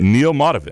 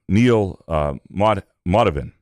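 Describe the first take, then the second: First: The name is said smoothly and confidently. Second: The name is said hesitantly, with stumbling. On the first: The speaker calls it right. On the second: The speaker calls it wrong.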